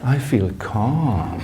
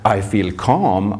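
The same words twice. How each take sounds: First: It is said in a calm, soothing way. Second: It is said in a plain, ordinary way. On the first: "I said it in a calm way" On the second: "I didn't only just say"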